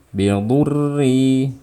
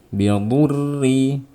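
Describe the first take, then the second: No difference in how they are said.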